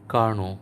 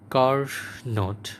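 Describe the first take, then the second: First: The word ends on a vowel, no t. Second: The word ends with an audible t sound. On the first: The speaker calls it right. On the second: The speaker calls it wrong.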